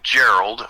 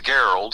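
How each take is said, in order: First: "Gerald" with a soft G, like a J; "Gerald" starting with a J sound. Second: "Gerald" with a hard G, as in "get"; "Gerald" starting with a hard G sound. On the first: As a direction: say "Gerald" as JERR-uld. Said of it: "only it's pronounced Gerald". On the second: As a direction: say "Gerald" as GAIR-uld. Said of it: "it's pronounced Gerald". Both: Shown as a demonstration.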